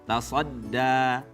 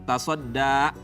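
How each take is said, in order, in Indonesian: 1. Vokal terakhirnya terbuka tanpa hamzah. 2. Vokal terakhirnya terputus oleh hamzah.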